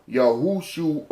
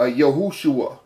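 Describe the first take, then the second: First: "Yahushua" slowly split as Yah-hoo-shoo-uh; softer, drawn-out syllables in "Yahushua". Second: Said in the usual way. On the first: Shown as a demonstration. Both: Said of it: "pronouncing it like that".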